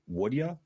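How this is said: It is said casually, rolling off the tongue.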